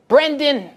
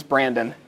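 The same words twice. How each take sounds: First: High, thick Long Island "Brendan"; imitated Long Island saleswoman; Long Island accent. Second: Said in the usual way. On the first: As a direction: call out the name like a Long Island woman. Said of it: "that's how she sounded". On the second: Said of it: "My name is Brandon".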